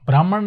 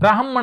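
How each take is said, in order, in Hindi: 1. ह ध्वनि के बाद पूरा स्वर आता है। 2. ह ध्वनि तेज़ होती है, उसके बाद कोई स्वर नहीं होता। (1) "ब्राह्मण नहीं होता" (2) "ब्राह्मण होता है, है जल्दी से बोलना है, स्वर रहित है"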